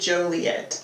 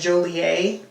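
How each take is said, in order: First: The name is pronounced in an American style. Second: The name is pronounced in a French style. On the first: The speaker calls it right. "specifically Joliet" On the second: The speaker calls it wrong. "it kind of looks French. Like, I feel like you would say, like, Joliet"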